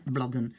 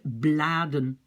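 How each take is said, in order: First: "bladen" with a short, clipped A, like bladden; quick "bladen", first vowel cut short; short blocked A. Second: "bladen" with a long aah in the first syllable; slow, corrected "bladen" with an open, drawn-out A. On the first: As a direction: say "bladen" wrongly, as if the D were doubled. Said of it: "je dois bloquer mon A". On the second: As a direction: stretch the A of "bladen" slowly, blaa-den. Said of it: "Non, c'est une exception". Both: Shown as a demonstration.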